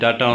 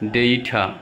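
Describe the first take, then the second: First: The first vowel sounds like 'ah'. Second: The first vowel sounds like 'ay'. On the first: The speaker calls it wrong. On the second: The speaker calls it right.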